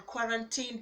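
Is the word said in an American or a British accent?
British. The word is said in a British accent. "or the British"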